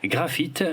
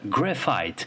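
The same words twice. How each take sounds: First: The word is pronounced the French way. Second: The word is pronounced the English way.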